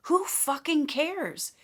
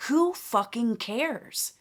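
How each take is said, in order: First: Higher and slow, each word of "Who fucking cares?" punched; slow, raised, defiant "Who fucking cares?"; emphatic. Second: Slow and deliberate, leaning hard on "Who fucking cares?"; drawn-out, firm "Who fucking cares?"; emphatic. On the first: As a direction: hammer "Who fucking cares?" home, pitched up. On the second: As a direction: spell out "Who fucking cares?" word by word, dismissive. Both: Shown as a demonstration. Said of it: "And I say that emphatically".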